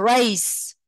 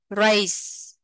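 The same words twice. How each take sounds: First: Slow "race" ending in a clear s; "race" đọc âm s; s sound in race. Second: "race" ending on a hissed s; "race" đọc âm s; s sound in race. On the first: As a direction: stretch "race" out and finish on a crisp s. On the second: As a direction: finish "race" on a clear s. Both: Shown as a demonstration. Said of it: "thì phát âm thành âm sờ".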